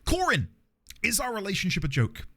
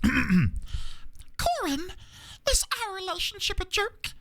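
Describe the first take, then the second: First: It is said in the speaker's normal voice. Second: It is said in an imitation of Elmo's voice.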